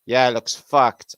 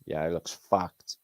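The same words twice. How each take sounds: First: Louder, drawn-out repeat; emphatic slow repeat; louder, slower retake. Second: Said in the usual way. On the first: Shown as a demonstration. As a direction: say it again bigger and slower. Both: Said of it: "I said that".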